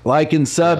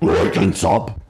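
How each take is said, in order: First: It is said in a natural voice. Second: It is said in a put-on voice.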